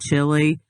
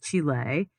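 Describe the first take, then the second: First: The name is said with an English pronunciation. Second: The name is said with a Spanish pronunciation. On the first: It is dumbed down to fit in. "I feel like I gotta slum it" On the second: It comes across as pretentious. "whenever I say it like that, people look at me"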